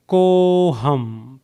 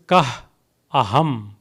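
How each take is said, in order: First: One joined word with an o sound. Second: Two separate words with a break between. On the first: "Together would become koham" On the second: "The next word is kah, aham"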